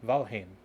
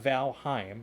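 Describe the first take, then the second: First: The second syllable sounds like 'him'. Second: The second syllable does not sound like 'him'. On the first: The speaker calls it right. "Val Val Him. like Valhalla" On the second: The speaker calls it wrong. "It's not Valheim"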